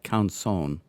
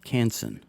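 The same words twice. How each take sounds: First: The name is said with a French pronunciation. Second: The name is said with an English pronunciation. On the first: "the French way to say it is more like Canson" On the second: "in the last video I pronounced it Canson"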